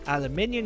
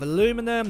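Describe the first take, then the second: First: It is said in a British pronunciation. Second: It is said in an American pronunciation.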